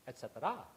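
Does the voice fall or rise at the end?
rise. The pitch rises at the end. The speaker calls it right. "in Thai the dialect goes up, so it would always be"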